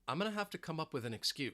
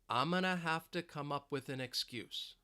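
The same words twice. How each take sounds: First: The sentence is spoken quickly at normal speed. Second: The sentence is spoken slowly and carefully. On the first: "Let's say it faster now at more of a normal speed" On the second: "Let's say it slowly"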